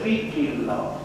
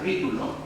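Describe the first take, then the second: First: The second vowel sounds like 'ee'. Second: The second vowel sounds like 'oo'. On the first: The speaker calls it wrong. "Διατηρείται η ομηρική προφορά" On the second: The speaker calls it right. "πιο σωστά ακουγότανε παλιά όταν το λέγαμε Βίτουλο"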